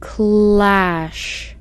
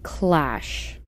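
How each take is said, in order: First: The word is read more slowly. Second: The word is read faster.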